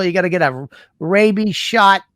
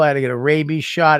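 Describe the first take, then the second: First: Angry mother. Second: Said in the usual way. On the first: Retold or imitated. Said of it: "I've never seen her that mad".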